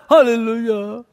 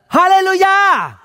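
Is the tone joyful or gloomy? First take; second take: gloomy; joyful. First: It is said flatly and gloomily. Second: It is shouted joyfully with a smile.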